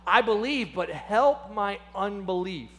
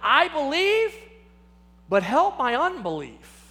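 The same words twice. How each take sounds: First: A touch of an emotional plea; overcome with emotion. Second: A desperate father crying out. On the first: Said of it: "overcome with emotion". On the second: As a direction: call out to him in need. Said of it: "he cries out and he says". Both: Retold or imitated.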